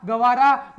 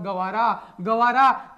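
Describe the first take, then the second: First: Loud Gavara. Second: Slow, spelled-out Gavara; slow drawn-out Gavara. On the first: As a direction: punch out Gavara for the class to remember. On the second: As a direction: stretch out Gavara, Gavara slowly, each syllable long. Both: Shown as a demonstration. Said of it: "अरे गवार है रे भाई साहब".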